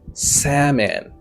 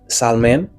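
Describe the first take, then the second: First: The L sound is silent in the word. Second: The L sound is pronounced in the word. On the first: The speaker calls it right. "El nan pa prononse" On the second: The speaker calls it wrong. "Oh no, no, no"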